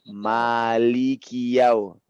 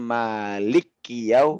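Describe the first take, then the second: First: The syllables li and ki stay cleanly separate. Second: The L closes into a doubled K sound. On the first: The speaker calls it right. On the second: The speaker calls it wrong.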